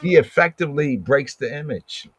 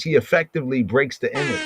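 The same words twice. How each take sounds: First: "He" lifted and weighted, rest steady; stress on he. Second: Fast, light run-through of "He effectively breaks the image"; quick first read. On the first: Teacher repeating the line to class, stressing "He". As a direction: lean on "He" in "He effectively breaks the image". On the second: Teacher reading the line to the class, quickly. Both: Shown as a demonstration.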